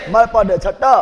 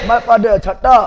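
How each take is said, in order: Both takes have the same delivery.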